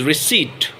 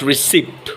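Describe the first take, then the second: First: "receipt" said as ri-SEET; silent P. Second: "receipt" said as ri-SIPT; P sounded. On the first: Teacher giving the correct word, "receipt" with silent p. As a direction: say "receipt" with no p sound. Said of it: "we have to make the P silent". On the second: Teacher showing the mistake, "receipt" with the p heard. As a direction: say "receipt" wrongly with a p before t. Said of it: "not receipt". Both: Shown as a demonstration.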